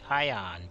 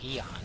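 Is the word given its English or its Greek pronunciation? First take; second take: English; Greek. First: The word has its English pronunciation. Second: The word has its Greek pronunciation. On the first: "English people say Ion" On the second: "but in Greek it would be Eon"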